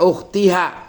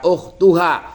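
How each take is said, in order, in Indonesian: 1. Vokal sebelum suku kata terakhir adalah i. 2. Vokal sebelum suku kata terakhir adalah u. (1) "jangan dibaca ukhtiha" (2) "jangan dibaca ukhtuha"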